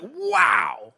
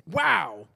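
First: High, bright, delighted wow; amazed wow. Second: Said in the usual way. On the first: Shown as a demonstration. Preacher showing the congregation a clear wow, amazed. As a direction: sing out the wow in wonder. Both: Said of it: "Wow is like".

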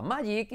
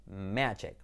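First: "magic" as MAH-yeek; pronunciación errónea. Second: "Magic" low and soft, MEH-jek; pronunciación correcta. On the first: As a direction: say "magic" with a y sound. ("magic" mal dicho, «mayik») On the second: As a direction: answer low with "Magic", short e. ("Magic" grave y suave, «médchek») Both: Shown as a demonstration. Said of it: "pensabas que se pronunciaba magic".

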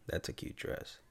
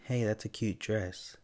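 First: Hushed, creepy near-whisper; creepy compliment. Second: Easy, slow friendly compliment; casual compliment. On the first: Showing how the same compliment turns creepy, whispered. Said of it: "how the tone just changes everything". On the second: Showing the host how to compliment a stranger's child, casually. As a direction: say it as a harmless, everyday compliment. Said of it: "it's all how you say things". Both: Shown as a demonstration.

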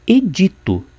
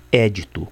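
First: "edito" stressed on the middle syllable, e-DI-to; high "edito", leaning on DI; correct stress. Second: "édito" stressed on the first syllable, É-di-to; common wrong stress. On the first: Teacher giving the word for law or decree, carefully stressed. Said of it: "e não édito". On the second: Teacher rejecting the common usage, first syllable stressed. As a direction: punch É and let "dito" fall in "édito". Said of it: "como se costuma usar comumente". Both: Shown as a demonstration.

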